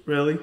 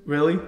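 The two takes are said the same way.

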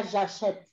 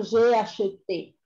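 First: "j'achète" with open è and silent final e; present-tense pronunciation. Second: "j'ai acheté" with a clear final é; past-tense pronunciation. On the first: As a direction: end "j'achète" on the t sound. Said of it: "el presente tiene el acento acheté en la primera". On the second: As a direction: sound the closing "é" of "acheté". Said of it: "Porque he dicho j'ai acheté". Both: Shown as a demonstration.

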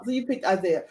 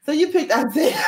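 First: Said in the usual way. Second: Higher, louder, laughing through the words; laughing tease. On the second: Real, not acted. Host reacting to the guest picking Isaiah, laughing tease.

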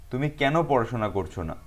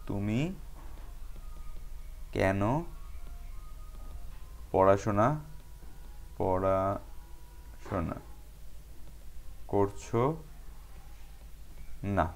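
First: Said in the usual way. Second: Very slow and softer, long pauses between words; word-by-word dictation. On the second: Shown as a demonstration. Teacher dictating the exercise to students, word by word with long gaps. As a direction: spell it out word by word, quietly, as if writing along.

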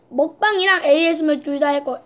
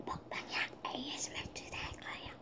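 First: Said in the usual way. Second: Much softer ASMR whisper. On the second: Shown as a demonstration. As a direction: whisper it right into the mic. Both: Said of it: "repeats in whisper".

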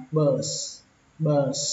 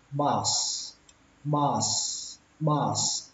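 First: "bus" with a central uh vowel, like "bơs"; less accurate BUS. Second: "bus" with an open ah vowel, like "bas"; first way of BUS. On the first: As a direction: say "bus" with ơ in place of a. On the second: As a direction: say "bus" with a clear a. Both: Shown as a demonstration. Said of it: "Cách thứ hai nó không chính xác bằng".

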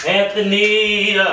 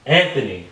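First: Drawn-out exasperated call across the room. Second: Said in the usual way. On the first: Real, not acted. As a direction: call him out, dragging the name. Calling ignoring boyfriend louder.

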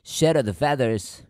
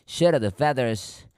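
Both takes have the same delivery.

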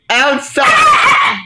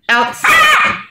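First: Shouted command. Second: Very high sing-song call to a dog; high-pitched call. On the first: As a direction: bark the command at the dog. Calling dog firmly. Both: Real, not acted.

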